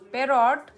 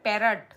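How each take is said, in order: First: The second vowel sounds like a full 'o'. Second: The second vowel sounds like a weak 'uh'. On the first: The speaker calls it wrong. "अच्छा पैरोट नहीं होता होगा" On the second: The speaker calls it right. "पैरट होता है क्या?"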